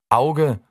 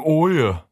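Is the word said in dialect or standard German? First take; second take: standard; dialect. First: It is said in standard German pronunciation. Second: It is said in a regional dialect pronunciation. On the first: "wir pimpen jetzt mal Hochdeutsch" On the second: "aus einem Auge ein Oje"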